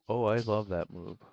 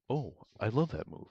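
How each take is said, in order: First: It is said in his natural voice. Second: It is said in a put-on narrator voice.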